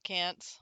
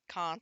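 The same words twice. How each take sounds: First: It is said in an American accent. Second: It is said in a British-sounding accent. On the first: It is the speaker's usual way of saying it. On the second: It imitates a classmate's accent.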